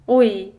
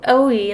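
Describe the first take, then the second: First: The vowel is said softly without pressure. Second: The vowel is said with more force. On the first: "you can do it without putting that much force or pressure" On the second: "like in English, you can feel that there's a bit more force"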